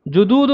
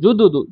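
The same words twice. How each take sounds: First: The middle vowel is drawn out long. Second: The middle vowel is said short and quick. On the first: The speaker calls it wrong. "नहीं" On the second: The speaker calls it right. "जल्दी से बस"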